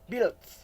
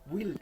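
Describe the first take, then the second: First: The final d and s sounds are pronounced. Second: The final consonant sounds are dropped. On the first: The speaker calls it right. "kaidah yang benar build ya. Builds ada huruf S-nya" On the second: The speaker calls it wrong. "kadang orang mengucapkannya buil katanya"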